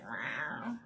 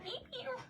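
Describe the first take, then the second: First: Lower, twangy cat meow; imitated cat meow. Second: Very high, soft bugled meows; bugling cat meow. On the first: Imitating Maggie the other cat, low drawn meow. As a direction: meow like a Southern lady cat. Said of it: "And Maggie's like". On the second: Retold or imitated. Imitating Shelby the cat, high bugling meow. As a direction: bugle like an elk in a tiny cat voice. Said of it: "like, a bugling noise".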